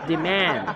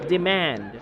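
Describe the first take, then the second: The two takes are said the same way.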